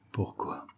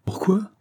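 First: POURQUOI sunk to a near-whisper; hushed, much softer POURQUOI; second tone of POURQUOI. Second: POURQUOI pitched very high and rising; high, questioning POURQUOI; first tone of POURQUOI. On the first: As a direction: repeat POURQUOI very softly, almost voiceless. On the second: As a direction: ask POURQUOI in a high, lifted voice. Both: A narrator's reading. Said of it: "répéta-t-il sur deux tons différents".

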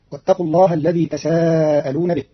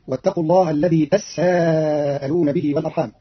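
First: Said in the usual way. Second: تساءلون with a held, doubled s, "tassa'aluna"; Qalun's "tassa'aluna" for تساءلون; doubled sin. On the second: Shown as a demonstration. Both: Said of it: "بتشديد السين".

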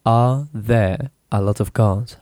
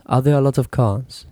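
First: "Are there a lot of cars?" said slowly in chunks; teacher splitting the question slowly; broken into pieces. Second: Said in the usual way. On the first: Shown as a demonstration. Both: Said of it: "divide the sentence into small pieces".

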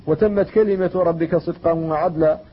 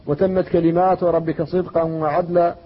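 First: وتمت كلمة read in the singular, slow and recited. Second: وتمت كلمات read in the plural, slow and recited. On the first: Teacher recites the singular reading to students, slow and measured. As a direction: recite كلمة as a single word, slowly. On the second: Teacher recites the plural reading to students, slow and measured. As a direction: lean on كلمات with its long a, slowly. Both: Shown as a demonstration. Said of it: "لتقرأ بالوجهين".

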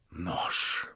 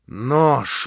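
First: Hissed, breathless; whispered in fury. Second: Voiced, louder bark; spoken in fury. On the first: Stavrogin whispers to himself in fury. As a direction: breathe the word out in rage. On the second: Stavrogin repeats it aloud in rage. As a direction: spit the word out aloud. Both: A narrator's reading. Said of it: "повторял он в неутолимой злобе".

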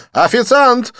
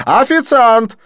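First: High, loud call across the bar; calling the waiter. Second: High, loud, insistent call; calling the waiter. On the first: Didier calling the waiter, high loud call. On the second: Didier calling the waiter again, loud insistent. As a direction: call the waiter once more, louder. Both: Acted. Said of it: "окликнул Дидье".

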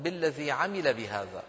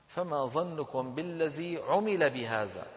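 First: عمل read as active "'amila", with a on the first letter; common misreading. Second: عمل read as "'umila", with u on the first letter; slowly, clearly say عمل as "'u-mi-la"; correct passive reading. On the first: Teacher quoting what people usually say, عمل as "'amila". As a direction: slowly say عمل as "'a-mi-la". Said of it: "المشهور على ألسنة الناس يقولون". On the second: Teacher giving students the correct reading, عمل as "'umila". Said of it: "فصواب نطقه أن نقول". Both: Shown as a demonstration.

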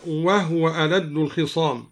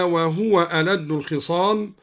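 First: "وهو" said wahwa, no vowel on the ha; silent vowel on ha. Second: Said in the usual way. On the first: Shown as a demonstration. Teacher shows al-Duri's reading, "وهو" as wahwa. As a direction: close the ha of "وهو" straight into the waw. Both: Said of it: "أسكن الهاء هكذا".

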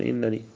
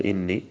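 First: إنني said with the added nun, as in-ni-ni; إنني with the protecting nun kept. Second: إني said plainly as ini, no extra nun; plain إني, no nun of protection; without the nun. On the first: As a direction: say إنني with both nuns sounded. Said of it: "يقول إنني". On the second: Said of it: "بدون الوقاية". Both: Shown as a demonstration.

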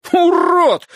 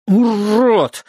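First: High, loud roar. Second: Gurgled through water; gurgling. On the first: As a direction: bellow the insult. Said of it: "взревел он". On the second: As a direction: spit it out with water in mouth. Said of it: "пробулькал я". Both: Acted.

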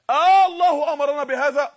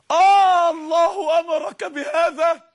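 First: Loud questioning call to the crowd; loud, laughing-edged preacher question; emphatic preacher question. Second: Slow, high, loud sobbing question; tearful plea. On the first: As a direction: throw the question out with force. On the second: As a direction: beg through tears as Hagar. Hagar pleading with Abraham. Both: Acted.

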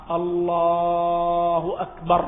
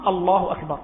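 First: الله أكبر drawn out long and sung; drawn-out sung takbir; stretched takbir. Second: الله أكبر said short and firm, no stretching; the correct firm takbir; clipped takbir. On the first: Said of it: "هذا مكروه". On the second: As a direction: cut الله أكبر off crisply. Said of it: "هكذا". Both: Shown as a demonstration.

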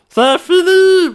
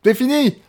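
First: "C'est fini" pitched high and slow; high dramatic. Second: Said in the usual way. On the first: Shown as a demonstration. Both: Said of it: "c'est tout".

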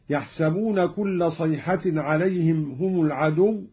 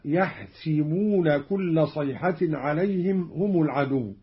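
First: Said in the usual way. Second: "يحسبون" as "yahsibuuna", i after s; kasra on sin. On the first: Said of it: "قرأ قالون بكسر السين". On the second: Shown as a demonstration. Teacher demonstrating Qalun, "يحسبون" said yahsibuuna. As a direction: put a short i in "يحسبون", yah-si-buu-na. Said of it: "بكسر السين، هكذا".

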